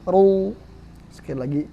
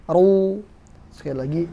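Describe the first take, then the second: No difference in how they are said.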